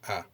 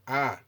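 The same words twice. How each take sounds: First: The pitch stays low and level. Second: The pitch stays high and level. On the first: "it indicates low intonation as here" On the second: "high intonation is indicated with the circumflexed accent"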